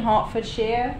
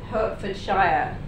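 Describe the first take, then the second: First: Pronounced the way local people say it. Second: Pronounced the way outsiders tend to guess. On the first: The speaker calls it right. "this is the correct pronunciation" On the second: The speaker calls it wrong. "The incorrect one that you might be all thinking"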